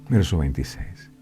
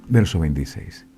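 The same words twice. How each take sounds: No difference in how they are said.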